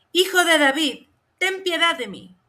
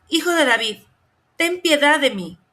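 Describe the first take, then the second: The two takes are said the same way.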